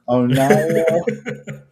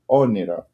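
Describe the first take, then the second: First: The middle vowel sounds like 'eye'. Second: The middle vowel sounds like 'ee'. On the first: The speaker calls it wrong. "I've heard many different versions of it" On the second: The speaker calls it right. "but it's actually Oniro"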